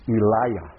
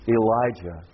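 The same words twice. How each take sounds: First: "Eliah" with a Y sound, ee-LIE-yah; Hebrew-style pronunciation. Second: "Elijah" with a J sound, ee-LIE-juh; English pronunciation. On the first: Preacher shows the name's Hebrew form, Y-sound pronunciation. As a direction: drop the J in "Eliah" for a Y. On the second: Preacher gives the familiar name, English pronunciation. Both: Shown as a demonstration.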